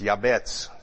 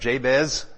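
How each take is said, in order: First: The name begins with a Y sound. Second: The name begins with a J sound. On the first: The speaker calls it right. "I learned later on that it's Yabetz" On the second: The speaker calls it wrong. "remember the prayer of Jabez?"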